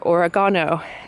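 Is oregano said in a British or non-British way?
British. It is said the British way.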